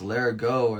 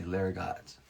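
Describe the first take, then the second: First: The final T sound is silent. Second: The final T sound is pronounced. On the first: The speaker calls it right. "the only ones who would know that it's Larigot are the ones who spoke French" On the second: The speaker calls it wrong. "it ends with a T. So everybody always just say Larigot"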